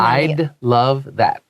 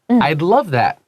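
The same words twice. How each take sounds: First: The phrase is said slowly. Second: The phrase is said quickly. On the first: "慢慢念" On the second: "even though I say it very quickly"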